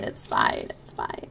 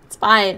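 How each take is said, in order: First: Fading to a whisper. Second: Said in the usual way. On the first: Real, not acted. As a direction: whisper it to calm yourself. Repeats it's fine, fading.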